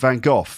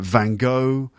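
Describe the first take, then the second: First: The name has a British English pronunciation. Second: The name has a non-British pronunciation. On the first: "I say Vincent van Gogh in British English" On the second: "In other countries it's like Van Gogh"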